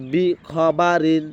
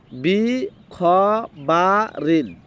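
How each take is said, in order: First: বি খ বা রিন linked into one word; joined up. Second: বি, খ, বা, রিন each drawn out apart; broken up. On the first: Teacher mixes the pieces together afterwards, joined up. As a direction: say বি খ বা রিন together, without long pauses. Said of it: "একসাথে বলতে হবে না". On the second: Teacher first breaks the word into pieces, broken up. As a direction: pause after every syllable of বি খ বা রিন. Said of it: "আমি ভেঙে ভেঙে উচ্চারণ করব". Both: Shown as a demonstration.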